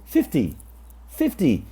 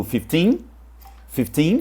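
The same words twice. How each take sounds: First: FIF-ty, keep the end of fifty short; stress on FIF. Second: Fifteen rising on the second syllable; fif-TEEN, lengthen the end of fifteen; stress on TEEN. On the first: Teacher modelling for learners, "fifty" stressed on fif. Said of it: "com estresse no fifth". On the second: Teacher modelling for learners, "fifteen" stressed on teen. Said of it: "com estresse no teen". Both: Shown as a demonstration.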